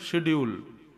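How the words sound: It starts with a 'sh' sound, British style.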